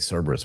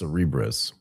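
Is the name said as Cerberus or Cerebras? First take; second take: Cerberus; Cerebras. First: It is pronounced like the word Cerberus. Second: It is pronounced with the ending bras. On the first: The speaker calls it wrong. "I want to say Cerberus, but it's not that" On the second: The speaker calls it right. "it's Cerebras"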